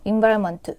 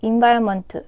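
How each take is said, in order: Both takes have the same delivery.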